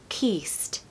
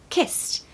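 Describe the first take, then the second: First: The vowel is drawn out long. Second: The vowel is short and quick. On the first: The speaker calls it wrong. "We do not want to hear kissed" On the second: The speaker calls it right. "we want a short I in kiss"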